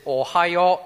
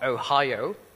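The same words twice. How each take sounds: First: It is said as the Japanese greeting ohayo. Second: It is said like the US state name. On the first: It is a morning greeting. The speaker calls it right. "He actually wanted to say good day, good morning, which is Ohio" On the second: It names a place, not a greeting. The speaker calls it wrong. "not Ohio"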